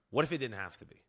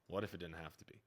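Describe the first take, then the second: First: A touch of salesy ad-read promise; infomercial pitch. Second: Softer and lower, dropping the ad voice; toned down. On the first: Self-mocking coach hearing his line as an infomercial, salesy. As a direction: pitch it like a late-night infomercial. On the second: Coach redoing his line without the infomercial tone, quiet. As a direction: say it again quietly, no selling. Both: Shown as a demonstration. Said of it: "Sounded like an infomercial".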